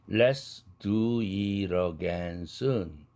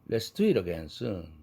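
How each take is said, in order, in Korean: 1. 이 문장은 느린 속도로 말합니다. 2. 이 문장은 빠른 속도로 말합니다.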